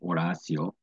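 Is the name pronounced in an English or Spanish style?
Spanish. The name is said with Spanish pronunciation.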